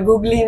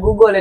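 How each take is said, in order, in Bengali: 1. শব্দটি 'ee' স্বরধ্বনি দিয়ে শেষ হয়। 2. শব্দটি 'l' ধ্বনি দিয়ে শেষ হয়। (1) "এটা গুগলি না" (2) "এটা গুগল"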